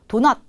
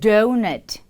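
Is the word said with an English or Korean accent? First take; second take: Korean; English. First: It is said with a Korean accent. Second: It is said with an English accent. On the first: The speaker calls it wrong. "도넛이 아닌 donut" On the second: The speaker calls it right. "이렇게 발음을 해주시면 됩니다"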